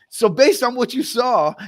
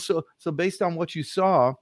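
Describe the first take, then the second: First: The voice sounds bright and enthusiastic. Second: The voice sounds hesitant and cautious. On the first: The speaker calls it right. "by saying it with enthusiasm the second way" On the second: The speaker calls it wrong. "you start acting cautious"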